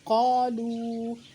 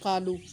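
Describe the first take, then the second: First: The final vowel is stretched long. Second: The final vowel is clipped short. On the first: The speaker calls it right. "थोड़ा सा खींच कर पढ़ना है, एक अलिफ के बराबर" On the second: The speaker calls it wrong. "गलती से या ला इल्मी में या लापरवाही में हम पढ़ जाते हैं"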